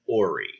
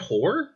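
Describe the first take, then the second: First: Two syllables, no h sound, ending in 'ee'. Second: One syllable, starting with an h sound. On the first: "I choose to believe it is pronounced Ori" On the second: "the American mind of both Jeff and I looked at that and said"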